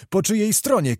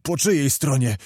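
First: High-pitched insistent repeat; escalated urgent demand; shouted question. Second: Said in the usual way. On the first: A narrator's reading. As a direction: cry the question out, pitch jumping up. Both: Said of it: "krzyczał Zagłoba".

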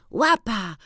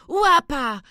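First: A high, glad call to the dog; joyful cry. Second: Much higher, louder call to the dog; louder joyful cry. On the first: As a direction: call the dog's name, delighted. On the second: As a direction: shout his name again, overjoyed. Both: A narrator's reading. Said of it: "wykrzykiwał".

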